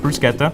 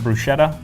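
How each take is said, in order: First: The word is said the intended way. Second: The word is said the commonly heard way. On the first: The speaker calls it right. "it will be pronounced bruschetta" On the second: The speaker calls it wrong. "often mispronounced as bruschetta"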